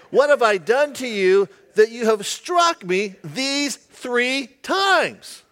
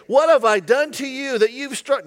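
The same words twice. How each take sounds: First: Said in the usual way. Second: A touch of a whiny pleading voice; lightly whined complaint; whining donkey. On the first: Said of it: "Not really, I take that back". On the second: Acted. Donkey whining at Balaam, mildly whiny. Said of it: "Had it been a female, she's whining".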